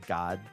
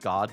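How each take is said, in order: First: It is said with a regional accent. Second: It is said in a neutral accent.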